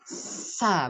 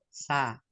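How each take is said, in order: First: The consonant is pushed out with force. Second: The consonant is released softly and weakly. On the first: The speaker calls it wrong. "Bukan sa, bukan gitu" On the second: The speaker calls it right. "Tapi sa, lemah"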